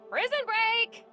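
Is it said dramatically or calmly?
dramatically. It is said dramatically and loudly.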